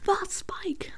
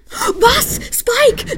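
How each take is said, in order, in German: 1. Er wird leise gesagt, ohne zu schreien. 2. Er wird laut und aufgeregt geschrien. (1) "Ich darf nicht so laut sein" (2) "ich schreie jetzt mal ein bisschen rum"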